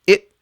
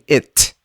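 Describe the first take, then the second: First: The final t is held and cut off. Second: The final t is fully released. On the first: "I'm saying it" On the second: "I'm not saying it"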